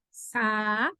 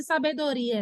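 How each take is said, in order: First: "sabedoria" as sa, be, do, ri, a, long gaps; separated vowels. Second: Joined ending. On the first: Teacher giving the other option, every syllable apart. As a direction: chop "sabedoria" into five slow syllables, a alone. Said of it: "ou se é sabedoria". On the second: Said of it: "como é que eu sei se sabedoria é". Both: Shown as a demonstration.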